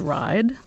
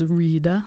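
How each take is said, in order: First: It is said with a modern English pronunciation. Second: It is said with a Middle English pronunciation. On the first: This is the present-day pronunciation. "in modern English is ride" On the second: This is the older pronunciation. "in Middle English is rida"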